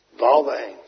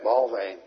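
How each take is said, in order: First: Behalve één repeated louder, punched; emphatic repeat of Behalve één; stress on Behalve. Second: Said in the usual way. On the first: Shown as a demonstration. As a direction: hit Behalve één hard after a pause.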